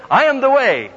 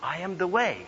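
First: High, loud proclaiming repeat; boldly belted-out recitation; loud declaration. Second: Softer, hushed prompt; feed the line quietly to someone on stage; mock whispered cue; imitated whisper. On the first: Retold or imitated. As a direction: proclaim the borrowed line to the whole room. Boy loudly repeats whispered prompt. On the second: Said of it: "so he whispered quietly".

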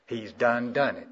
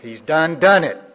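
First: Said in the usual way. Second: DONE, DONE punched loud and high; emphatic exclamation. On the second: Shown as a demonstration. Preacher repeating the South Carolina saying to the congregation, emphatic exclamation. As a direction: hammer both words "done, done" at full preaching force. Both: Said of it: "That's the way we say it in South Carolina".

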